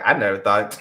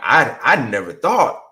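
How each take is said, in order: First: It is said in a flat, matter-of-fact way. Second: It is said with amazed, excited energy. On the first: The outcome is still a sore point. "It was a very matter of fact, like" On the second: The outcome is a wonderful surprise. "if she said it with an energy of like, ... it's so amazing ... wow, my wildest dream"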